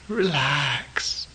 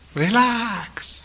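First: It is said in the speaker's plain accent. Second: It is said in a Thai accent, beaming.

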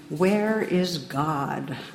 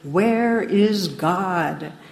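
First: It is said sternly at moderate volume. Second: It is said sterner with a raised voice.

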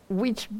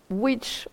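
Both takes have the same delivery.

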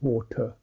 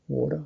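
First: The middle consonant sounds like a clear T. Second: The middle consonant sounds like a soft D. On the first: "where British would use a T sound" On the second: "American English would tend to use a D sound"

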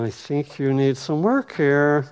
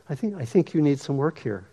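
First: It sounds harsh and judgmental. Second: It sounds warm and compassionate.

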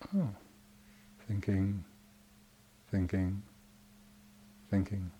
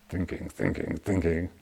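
First: It sounds soft and accepting. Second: It sounds tense and resistant.

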